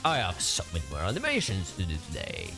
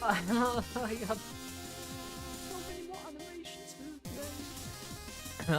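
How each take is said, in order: First: It is said in a put-on deep masculine voice. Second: It is said in the speaker's normal voice.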